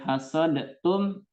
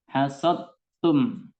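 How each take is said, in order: First: The d is released with a bouncing echo. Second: The d merges fully into the t sound. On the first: The speaker calls it wrong. "Kalau kita baca dengan qalqalah, ya hasodtum itu salah" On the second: The speaker calls it right. "dal sukunnya tidak terdengar"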